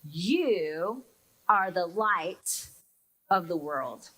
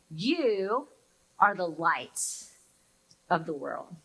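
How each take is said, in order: First: Slow, lowered, solemn scripture reading; slow reverent reading of the verse. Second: Slow, lowered, solemn reading again; solemn reading repeated. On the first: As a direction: read it slowly, letting each word land. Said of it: "Here are those first words". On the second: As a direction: let the words settle slowly. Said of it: "Hear those words again". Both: Shown as a demonstration.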